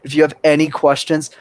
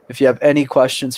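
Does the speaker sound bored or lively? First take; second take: lively; bored. First: The delivery is warm and engaging. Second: The delivery is flat and dull. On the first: The speaker engages the listeners. The speaker calls it right. "Same context, same sentence, different technique" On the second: The speaker does not engage the listeners. The speaker calls it wrong. "Professional, boring, nobody cares about what you have to say"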